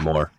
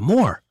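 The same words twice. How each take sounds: First: It is said in a flat, dull way. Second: It is said in an upbeat, lively way.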